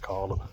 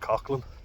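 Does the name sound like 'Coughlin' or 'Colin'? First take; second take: Colin; Coughlin. First: The name sounds like 'Colin'. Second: The name sounds like 'Coughlin'. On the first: This is how some places, like Cork, say it. "other places it's Colin" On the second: This is the speaker's usual way of saying it. "I pronounce it Coughlin"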